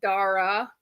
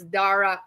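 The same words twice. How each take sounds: First: The final vowel is plain and smooth. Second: The final vowel is cut off abruptly. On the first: The speaker calls it wrong. "Western people just pronounce it Dara" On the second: The speaker calls it right. "you cut it off like half in the middle"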